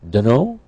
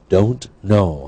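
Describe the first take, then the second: First: The words blend into one reduced word. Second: Both words are said fully and separately.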